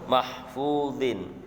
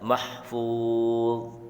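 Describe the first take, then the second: First: The word ends with a vowel and n. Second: The word ends on a bare consonant. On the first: The reader continues without pausing. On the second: The reader pauses at this word.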